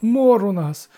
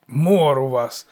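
First: High, loud wail of woe; desperate high-pitched complaint. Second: Slow, loud, sullen mockery; mock the wail back in your own pitch; dour, drawn-out parroting; gloomy mimicking. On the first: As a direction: lament it pleadingly to a god. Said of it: "заголосив староста". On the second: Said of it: "похмуро передражнило божество". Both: A narrator's reading.

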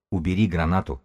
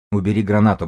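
First: Said in the usual way. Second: Firmer and louder ask; firm request. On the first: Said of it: "повторил разведчик". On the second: A narrator's reading. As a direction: tell him to put the grenade away, pressing. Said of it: "попросил Грызун". (твёрдая громкая просьба)

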